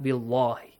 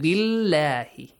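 First: The L sound is heavy and full. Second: The L sound is light and thin. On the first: The speaker calls it wrong. "not billahi" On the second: The speaker calls it right. "here you read it with an A sound"

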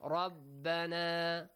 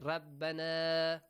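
Both takes have the same delivery.

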